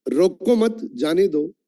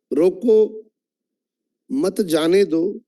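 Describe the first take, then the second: First: "रोको मत" joined, then "जाने दो"; break after मत. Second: "रोको" set apart, then slow "मत जाने दो"; pause after रोको. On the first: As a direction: keep मत with रोको, set जाने दो apart. ("रोको मत" साथ, फिर "जाने दो") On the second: ("रोको" के बाद विराम, फिर धीरे "मत जाने दो") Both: Shown as a demonstration. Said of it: "सिर्फ टोन चेंज करके बोलता हूं".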